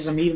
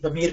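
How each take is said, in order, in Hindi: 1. शब्द 'z' ध्वनि से शुरू होता है। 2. शब्द 'd' जैसी ध्वनि से शुरू होता है। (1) "इसमें जमीर बोल देते हैं" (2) "दमीर बिल्कुल अरबी खालिश लफ्ज है"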